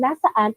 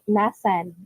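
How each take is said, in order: First: The word is said in full, three syllables. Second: The word is shortened to two syllables. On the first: This is the standard form. "instead of saying nasaan" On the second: This is the casual colloquial form.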